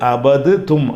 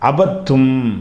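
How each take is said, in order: First: A separate d sound is heard before t. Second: The d merges into a doubled t sound. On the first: The speaker calls it wrong. "அப்படி சொல்லாமல்" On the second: The speaker calls it right. "தால் ஏறக்குறைய விட்டுறணும்"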